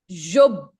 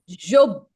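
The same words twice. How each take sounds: Both takes have the same delivery.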